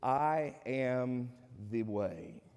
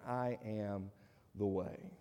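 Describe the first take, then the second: First: I am the way, each word slow and weighty; preacher proclaims Jesus's words with slow emphasis; solemn declaration. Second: "I am the way" dropped lower and softer; preacher quietly echoes Jesus's claim; soft repeat. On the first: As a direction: lay down "I am the way" very slowly, word by word. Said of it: "Jesus said in John fourteen six". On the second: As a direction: let "I am the way" sink low and hushed. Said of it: "Jesus says he's the only way". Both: Shown as a demonstration.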